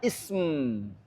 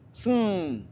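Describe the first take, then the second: First: The word starts with an added vowel sound. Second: The word starts directly with a consonant cluster. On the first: This is the usual Arabic way to say it. The speaker calls it right. "ditambahkan hamzah wasal di depannya" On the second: This is not how Arabs are used to saying it. The speaker calls it wrong. "sinnya sukun, kemudian mimnya sukun"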